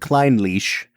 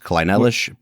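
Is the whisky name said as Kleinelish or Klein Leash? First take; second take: Klein Leash; Kleinelish. First: The name sounds like Klein Leash. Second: The name sounds like Kleinelish. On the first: This is how Scottish sources say it. The speaker calls it right. "So we're going with Klein Leash" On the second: This was the speaker's earlier guess. The speaker calls it wrong. "I thought this would be pronounced Kleinelish"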